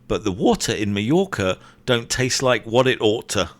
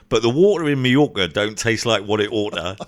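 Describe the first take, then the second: First: It is said without a Cockney accent. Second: It is said in a Cockney accent. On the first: "you did it without the Londony Cockney accent" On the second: "Do it with the Cockney accent"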